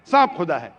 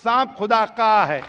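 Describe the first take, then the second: First: Said in the usual way. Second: "का" stretched with emphasis; stress on possessive. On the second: Shown as a demonstration. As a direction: lean hard on "का", then fall.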